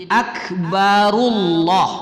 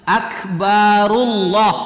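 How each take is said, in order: No difference in how they are said.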